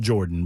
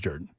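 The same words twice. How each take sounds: First: It follows the spelling, with a full 'or' sound. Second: It is said the local way, unlike the spelling. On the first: The speaker calls it wrong. "I know it's spelled Jordan" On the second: The speaker calls it right. "but it's pronounced Jordan"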